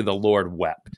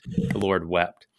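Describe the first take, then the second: First: Said in the usual way. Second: Slow solemn repeat. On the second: Shown as a demonstration. Host translating the chapel name, slow and hushed. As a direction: lay each word down slowly. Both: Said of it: "which means just simply".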